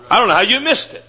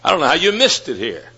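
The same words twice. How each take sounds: First: "missed" lifted high, tune rising at the end; higher, rising repeat. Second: Said in the usual way. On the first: Shown as a demonstration. Preacher repeating his rebuke to the students, pitched up and rising. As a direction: say it again up high, incredulous.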